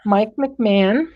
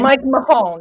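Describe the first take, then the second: First: The surname is said as 'McMahon'. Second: The surname is said as 'Mahone'. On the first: The speaker calls it wrong. "I pronounced it incorrectly" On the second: The speaker calls it right. "It's Mahone"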